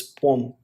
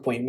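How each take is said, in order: First: "poem" said as POME; "poem" with a plain o into m; corrected poem. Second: "poem" said as POY-m with a glide; "poem" with a y glide before m; mispronounced poem. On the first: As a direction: say "poem" in one syllable, like home. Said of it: "it's poem". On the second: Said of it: "it's not poem". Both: Shown as a demonstration.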